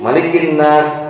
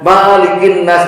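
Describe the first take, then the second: First: The vowel of 'ma' is kept short. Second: The vowel of 'ma' is held long. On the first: King of mankind. The speaker calls it right. "ma-nya pendek" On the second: Owner of mankind. The speaker calls it wrong. "ma-nya dipanjangin. Salah"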